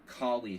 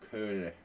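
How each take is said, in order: First: The name sounds like the dog breed collie. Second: The name does not sound like collie. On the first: The speaker calls it wrong. "like it's a Kali dog" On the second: The speaker calls it right. "we have to properly pronounce it"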